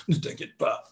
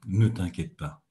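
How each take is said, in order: First: Breathy frightened whisper; whispered, frightened "Ne t'inquiète pas"; mock trembling whisper. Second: Low, gentle and settled; calm, soothing "Ne t'inquiète pas". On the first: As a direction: whisper it as if scared yourself. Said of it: "ça ne fonctionne pas". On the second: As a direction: say it softly to reassure. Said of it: "avec une voix calme, apaisante". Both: Shown as a demonstration.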